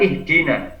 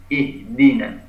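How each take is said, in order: First: "ihdina" with an everyday Indonesian D; wrong ihdina. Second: "ihdina" with the Arabic dal sound; correct ihdina. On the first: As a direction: give "ihdina" as the incorrect example, plain D. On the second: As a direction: model "ihdina" with an Arabic D, not Indonesian D. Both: Shown as a demonstration. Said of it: "bukan ihdina".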